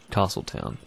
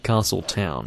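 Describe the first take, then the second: First: It is said as one compound word. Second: It is said as two separate words. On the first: The speaker calls it wrong. "not castle town" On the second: The speaker calls it right. "It's two words, so it should be castle town"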